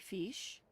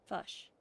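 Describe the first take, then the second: First: The vowel is an Australian-style short i sound. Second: The vowel is a Kiwi-style central uh sound. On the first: "So Australian would be fish" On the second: "Kiwi, the word sounds more like fish"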